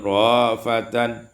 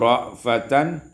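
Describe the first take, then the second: First: A long vowel replaces the glottal stop. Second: A glottal stop follows the first vowel.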